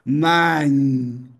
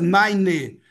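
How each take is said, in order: First: The word is said as one syllable. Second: The word is said as two syllables. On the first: The speaker calls it right. "Não pronuncia o último E" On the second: The speaker calls it wrong. "A tendência, nine, nine, e colocar duas sílabas"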